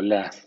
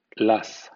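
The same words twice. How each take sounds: First: "laugh" ending in f, alternative vowel; laugh, second variant. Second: "laugh" ending in f, first vowel option; laugh, first variant. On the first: Teacher showing GH sounds F, second variant of "laugh". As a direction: say "laugh" as the other accepted form, final f. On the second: Teacher showing GH sounds F, first variant of "laugh". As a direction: say "laugh" as a model with final f. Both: Shown as a demonstration. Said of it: "G H también suena".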